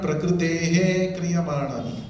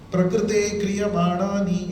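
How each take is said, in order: First: An echoing 'he' sound follows 'prakrite'. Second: No echoing sound follows 'prakrite'. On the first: The speaker calls it wrong. "it's not prakritehe kriyamanani" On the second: The speaker calls it right. "Prakrite kriyamanani it is"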